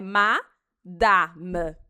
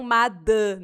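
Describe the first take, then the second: First: Madame very slow with open French a, final e silent. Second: Madame with the Brazilian closed nasal a and a final i; the Brazilian way, madami; Portuguese madame. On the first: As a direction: slowly say madame with a pure a. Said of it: "A em francês é sempre A". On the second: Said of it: "e não madame". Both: Shown as a demonstration.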